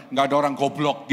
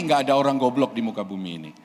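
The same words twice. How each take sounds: First: Goblok dipukul keras, salah cara; stress on goblok. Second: "nggak ada" ditekan, "goblok" pelan; stress on nggak ada. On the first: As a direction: tekankan kata "goblok" dengan keras. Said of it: "goblok pelan aja, jangan". ("goblok" diucapkan keras, cara yang salah) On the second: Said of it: "ngomongnya gini". ("goblok" pelan, tekanan pada "nggak ada") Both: Shown as a demonstration.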